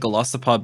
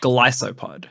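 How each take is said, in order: First: The middle vowel is a short 'ih' sound. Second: The middle vowel is a long 'eye' sound. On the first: The speaker calls it wrong. "I've always said Golisopod" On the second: The speaker calls it right. "both of them are like a hard eye"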